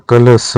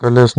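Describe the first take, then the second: First: कलश with held final sibilant; correct form. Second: कलश cut short at the end; incorrect form. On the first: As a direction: release कलश as "ka-la-sha". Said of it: "होता है". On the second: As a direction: say कलश as "kalas". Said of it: "नहीं होता". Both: Shown as a demonstration.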